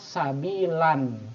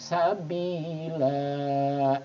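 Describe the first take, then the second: First: The word ends with a short vowel and n. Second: The word ends with a lengthened vowel, no n. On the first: The reading continues without stopping. "Kalau kita baca secara normal sabilan" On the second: The reader stops at the end of the phrase. "Agak panjang ya, dibaca panjang, sabila seperti itu"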